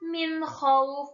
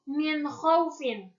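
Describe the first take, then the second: First: The phrase ends on a silent consonant. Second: The phrase ends with an added vowel sound. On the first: The reciter stops at this point. The speaker calls it right. "Dibacanya kan min khauf" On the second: The reciter carries on without stopping. The speaker calls it wrong. "bukan min khaufin"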